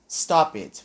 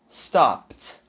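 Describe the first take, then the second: First: The ending is an extra 'id' syllable. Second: The ending is a short 't' sound. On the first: The speaker calls it wrong. "Muita gente vai falar stop it" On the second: The speaker calls it right. "esse E D ele vai ter um som de T"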